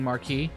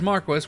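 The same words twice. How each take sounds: First: The word has the usual modern pronunciation. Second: The word has an old-fashioned pronunciation. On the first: "way of saying Marquis" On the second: "the dub for this game pronounced it as Marquis, which is apparently a old archaic way"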